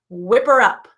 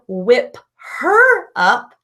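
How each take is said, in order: First: The h sound in her is dropped. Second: The h sound in her is pronounced. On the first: "we talked about that H dropping" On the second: "instead of whip her up"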